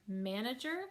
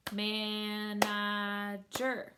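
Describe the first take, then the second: First: Said in the usual way. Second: "manager" very slow, stretched man-a-ger; three long separate beats on "manager"; syllable by syllable. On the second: Shown as a demonstration. Teacher clapping three syllables, "manager" split man-a-ger. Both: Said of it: "that word has three syllables".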